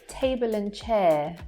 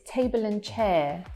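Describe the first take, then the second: No difference in how they are said.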